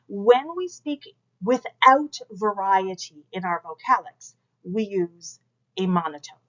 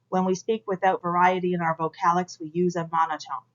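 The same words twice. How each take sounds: First: It is said with lively, varied pitch. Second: It is said in a flat monotone.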